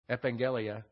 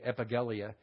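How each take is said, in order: First: The double g is said as an ng sound. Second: The double g is said as hard g sounds. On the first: The speaker calls it right. "In the Greek, that turns into an NG pronunciation" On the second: The speaker calls it wrong. "you don't pronounce it as like GG. You don't say epangelia"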